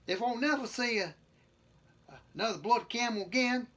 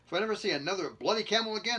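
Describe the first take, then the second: First: It is read in a put-on British-style accent. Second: It is read in the reader's ordinary accent.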